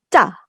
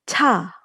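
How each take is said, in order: First: The first consonant is tense without air. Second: The first consonant has a puff of air. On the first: "nggak usah dikasih udara, jadi ditekan" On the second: "beri udara keluar dari mulut"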